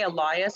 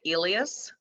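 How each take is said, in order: First: The name is given an anglicized pronunciation. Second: The name is given a non-anglicized pronunciation. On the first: The speaker prefers this pronunciation. The speaker calls it right. "I do say Elias" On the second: The speaker avoids this pronunciation. The speaker calls it wrong. "I do not say Elias"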